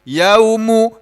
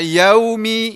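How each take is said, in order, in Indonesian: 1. Kata yauma diakhiri dengan vokal u. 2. Kata yauma diakhiri dengan vokal i. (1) "nggak boleh, nggak bisa" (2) "nggak bisa dibaca yaumi"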